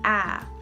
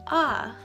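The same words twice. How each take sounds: First: The vowel is said with a sharper sound. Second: The vowel is said with a softer sound. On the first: "in English, when you have your A, you say A" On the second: "when you're speaking Indonesian, it would be a"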